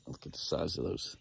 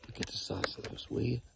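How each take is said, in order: First: Said in the usual way. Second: Whispered in awe at the antlers; soft whispered wonder; awed whisper. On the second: Real, not acted. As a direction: breathe it out, amazed. Marvelling at antlers.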